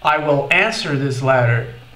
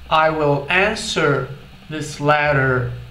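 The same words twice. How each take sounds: First: It is said quickly with the words run together. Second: It is said slowly with each word more separate. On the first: "ocorreu o que a gente chama de redução" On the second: "de uma forma mais lenta"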